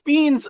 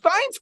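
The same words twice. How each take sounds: First: Fiennes rhyming with "beans"; Fiennes as "feens". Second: Fiennes rhyming with "lines"; Fiennes as "fines". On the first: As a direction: say Fiennes with a long ee, "feenz". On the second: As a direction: say Fiennes with a long i, "fynz". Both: Shown as a demonstration. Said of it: "I'd always mispronounce his".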